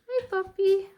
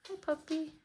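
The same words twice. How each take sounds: First: Much higher, louder squeal at the dog; excited pet voice. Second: High, soft greeting to a dog; pet voice. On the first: Delighted to see her dog, loud high squeal. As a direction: squeal hello to the puppy. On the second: Greeting her puppy as it arrives, high coo. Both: Real, not acted.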